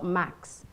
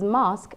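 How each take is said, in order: First: The vowel is a short flat 'a' sound. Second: The vowel is a long open 'ah' sound. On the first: The speaker calls it wrong. "A would be the American" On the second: The speaker calls it right. "R would be the British"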